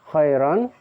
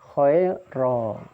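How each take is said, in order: First: The word ends with a vowel plus n. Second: The word ends with a long vowel, no n.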